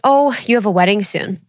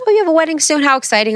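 First: Said in the usual way. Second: High, gushing mock excitement; excited store clerk. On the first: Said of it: "she was like". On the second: A store clerk gushing to a bride about her wedding, excited. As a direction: play the chirpy store clerk, pitched way up. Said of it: "She's like".

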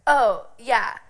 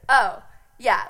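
First: A touch of breezy shrug. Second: Louder breezy shrug. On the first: Bluffing to the check-in girls, light breezy shrug. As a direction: toss it off like it's nothing. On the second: Bluffing to the check-in girls, louder breezy shrug. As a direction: toss it off with fake confidence. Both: Retold or imitated.

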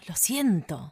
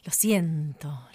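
First: Said in the usual way. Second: Whispering. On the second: Acted. Whispered aside in a duet.

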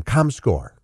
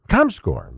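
First: Said in the usual way. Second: Comscore lower and drawn out with a falling tune; mock-grand repeat. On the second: Shown as a demonstration. Host presenting the measurement firm to viewers, mock-grand. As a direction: savor Comscore like a showman's reveal. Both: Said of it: "Comscore, ladies and gentlemen".

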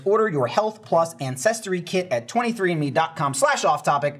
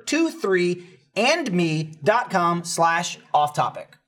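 First: Said in the usual way. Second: Slow, spelled out. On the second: Shown as a demonstration. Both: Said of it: "the number".

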